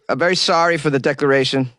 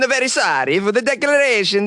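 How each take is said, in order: First: It is read in his ordinary voice. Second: It is said in a put-on imitating voice.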